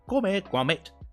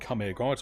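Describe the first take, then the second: First: It is said imitating Wallace's voice. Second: It is said in his own natural voice.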